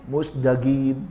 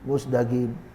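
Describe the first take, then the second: Both takes have the same delivery.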